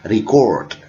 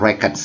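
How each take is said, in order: First: It is said with the verb pronunciation. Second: It is said with the noun pronunciation. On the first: The word names an action. "Kalau kata kerja dibaca dengan record" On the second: The word names a thing. "kata ini bacanya records ya kawan-kawan. Kenapa? Karena ini kata benda"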